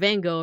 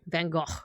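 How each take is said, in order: First: The name gets its American pronunciation. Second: The name gets its non-American pronunciation. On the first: This is how Americans say it. "But Van Gogh over here" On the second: This is how people outside America say it. "everywhere else they they say they say it different"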